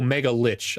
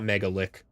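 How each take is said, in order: First: The last word ends with a 'ch' sound. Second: The last word ends with a 'k' sound. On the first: The speaker calls it right. "Oh, Mega Lich, I bet" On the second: The speaker calls it wrong. "not Megalick. Whoops"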